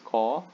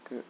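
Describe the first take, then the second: First: The consonant is followed by a vowel. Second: The consonant is said with no following vowel. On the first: "This is ka" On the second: "When you add hasonto, it becomes k"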